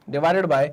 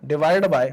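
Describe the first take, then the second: No difference in how they are said.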